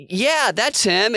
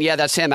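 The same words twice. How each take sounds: First: High, slow eager yes; mock caller. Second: Said in the usual way. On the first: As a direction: voice the caller brightly agreeing. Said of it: "And she's like". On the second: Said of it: "as she's saying".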